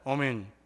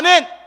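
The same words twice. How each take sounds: First: It is said flatly and weakly. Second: It is said with strong force.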